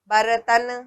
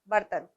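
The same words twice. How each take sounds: First: The r carries its own vowel, making three syllables. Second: The r joins the t quickly, with no vowel. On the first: The speaker calls it wrong. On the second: The speaker calls it right.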